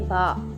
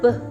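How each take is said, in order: First: The b sound has a vowel after it. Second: The b sound is short with no vowel. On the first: The speaker calls it wrong. "Don't say ba. Okay, that is wrong" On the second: The speaker calls it right. "B sounds B"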